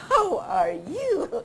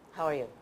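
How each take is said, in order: First: It is spoken with wavy, varied pitch. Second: It is spoken in a flat monotone. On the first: The speaker seems sincere. The speaker calls it right. "put in the waves" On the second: The speaker seems insincere. The speaker calls it wrong. "we need to watch out whether we're speaking in a monotone"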